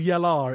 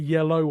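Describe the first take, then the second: First: The word ends with an 'er' sound. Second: The word ends with an 'oh' sound. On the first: This is how every line but the last is sung. "it's all yellar" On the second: This is how only the final line is sung. "except for yellow on the final one"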